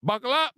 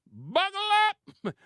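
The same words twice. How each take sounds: First: Said in the usual way. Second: Buckle pitched far higher and slow, falling; high drawn-out buckle up. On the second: Shown as a demonstration. Commentator warning viewers, high and slow.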